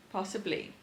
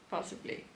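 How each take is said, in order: First: Said in the usual way. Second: Possibly in a breathy whisper, no voice; teasing whispered echo of Possibly. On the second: Shown as a demonstration. Repeats word, second time whispered.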